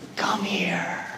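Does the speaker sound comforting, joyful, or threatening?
comforting. It is said in a soft, comforting tone. A hurt child is being called for comfort. "a parent to a child who has just fallen or is hurt"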